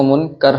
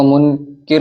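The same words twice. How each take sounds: First: منکر said as munkar, with an a in the second syllable; the corrected munkar form of منکر; منکر pronounced munkar, the right way; correct pronunciation. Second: منکر said as munkir, with an i in the second syllable; the mistaken munkir form of منکر; منکر pronounced munkir, the wrong way; wrong pronunciation. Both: Shown as a demonstration. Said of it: "اصلاح کر لیجئے".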